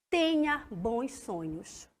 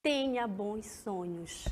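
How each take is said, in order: First: Soft, slow goodnight; soothing bedtime wish; tender wish. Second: Softer, slow goodnight; soothing bedtime wish; tender wish. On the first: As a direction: wish them sweet dreams gently. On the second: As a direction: murmur a sweet-dreams wish. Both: Shown as a demonstration. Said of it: "Deseja algo a alguém".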